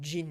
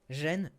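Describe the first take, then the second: First: It is said with an English pronunciation. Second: It is said with a French pronunciation.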